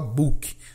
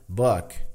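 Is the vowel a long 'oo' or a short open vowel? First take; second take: long oo; short open. First: The vowel is a long, closed 'oo' sound. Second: The vowel is short and open, like 'o'. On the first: The speaker calls it wrong. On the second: The speaker calls it right.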